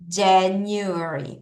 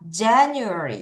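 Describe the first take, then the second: First: The word is said at a slow pace. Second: The word is said at a fast pace.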